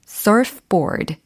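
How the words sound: It is said with English-style sounds and stress. The speaker calls it right. "이렇게 발음해 주시면 되겠습니다"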